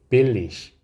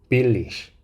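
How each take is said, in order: No difference in how they are said.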